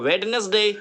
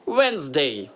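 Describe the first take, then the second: First: The first d is pronounced, three syllables. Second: The first d is silent, two syllables. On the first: The speaker calls it wrong. "अब हम पढ़ते थे इसको" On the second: The speaker calls it right. "डी नहीं पढ़ा जाता"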